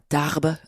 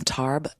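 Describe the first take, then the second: First: The name is pronounced in a French way. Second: The name is pronounced in an English way.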